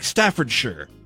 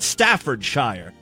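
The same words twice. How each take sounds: First: It is said in an imitated English accent. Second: It is said in the speaker's own non-English accent. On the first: This is how people in England probably say it. "there it's probably like" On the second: This is how the speaker would normally say it. "I would call it"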